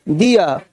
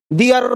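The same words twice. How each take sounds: First: दिया said low, with a falling dee-ya ending; right pronunciation. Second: दियर said as dee-yer, with a short rising ending; the wrong way, दियर with a lifted yer; wrong pronunciation. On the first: Teacher shows students the right sound, a low falling dee-ya. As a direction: drop the pitch on दिया and let the ending fall. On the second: Teacher shows students the wrong sound, a light dee-yer rising. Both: Shown as a demonstration. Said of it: "दियर नहीं बोलना है".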